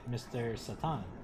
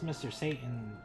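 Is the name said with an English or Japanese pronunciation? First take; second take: Japanese; English. First: The name is said with a Japanese pronunciation. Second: The name is said with an English pronunciation. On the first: "in Japan, ... they pronounce it" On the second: "his name is"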